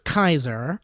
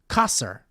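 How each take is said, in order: First: The first syllable rhymes with 'eye'. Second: The first syllable sounds like 'ka'. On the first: The speaker calls it wrong. "I was pronouncing it like the roll of bread" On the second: The speaker calls it right. "You say the Kai part like ka part in California"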